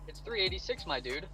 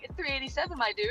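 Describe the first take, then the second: First: It is said in a normal voice. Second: It is said in a girly high-pitched voice.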